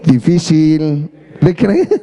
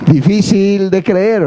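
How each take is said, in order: First: "Difícil de creer" very slow, low, "creer" stretched long with a rising end; drawn-out inner doubt, lower and slow; doubtful inner voice. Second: "Difícil de creer" drawn out slowly; mild imitation, words slowed; slow catchphrase. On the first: Retold or imitated. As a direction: sceptical thought, dragged out. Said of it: "en nuestra mente decimos". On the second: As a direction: lightly mimic the host, stretching "creer". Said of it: "Sergio Sepúlveda, ¿no?".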